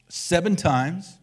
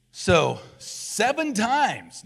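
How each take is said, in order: First: "seven times" slow, rising on "seven"; emphasis on seven. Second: "seven times" drawn out, very slow, stressing "seven"; emphasis on seven. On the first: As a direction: lean into "seven", slowing down. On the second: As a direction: linger on "seven" as if counting it out. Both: Shown as a demonstration. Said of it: "seven is the number of completeness".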